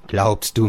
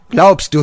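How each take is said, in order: First: Said in the usual way. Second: "Glaubst" yelled very high and loud, falling; shouted stress on GLAUBST. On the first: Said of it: "repeated phrase, first take". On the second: Acted. Father shouts at Georg, stressing "Glaubst". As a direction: explode on "Glaubst". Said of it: "repeated phrase, second take shouted".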